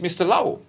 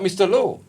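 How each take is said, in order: First: The surname rhymes with 'cow'. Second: The surname rhymes with 'go'. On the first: The speaker calls it right. "it's Mister Lau" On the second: The speaker calls it wrong. "is not Mister Low"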